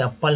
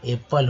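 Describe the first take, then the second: First: एप्पल said with "uh" first; एप्पल without its "e" opening; wrong pronunciation. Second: एप्पल starting with "e"; correct pronunciation. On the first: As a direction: mispronounce एप्पल as "UP-pul". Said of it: "एप्पल नहीं बोलेंगे". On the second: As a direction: say एप्पल as "EP-pul". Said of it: "यहाँ एप्पल होगा". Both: Shown as a demonstration.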